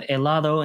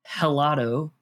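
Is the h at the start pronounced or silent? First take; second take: silent; pronounced. First: The word starts with a vowel, no h sound. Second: The word starts with an audible h sound. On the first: The speaker calls it right. "It is silent" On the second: The speaker calls it wrong. "Do not pronounce an H in Spanish"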